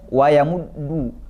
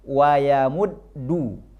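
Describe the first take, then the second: First: The doubled d is said without the lip return. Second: The lips move back to mark the doubled d. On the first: The speaker calls it wrong. "nggak boleh wayamuddu" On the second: The speaker calls it right. "Maka penyebutannya wayamuddu"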